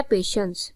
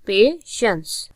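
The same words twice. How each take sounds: First: Said in the usual way. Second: patience slowly in two separate syllables; teacher sounding out both parts of patience. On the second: Shown as a demonstration. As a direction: split patience in two with a pause between. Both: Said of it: "patience टू syllabic word".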